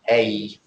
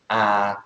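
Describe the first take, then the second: First: The article is said in its full, emphatic form. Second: The article is said in its plain, unemphatic form. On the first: "that's the emphatic pronunciation of the article" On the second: "The article is, for example"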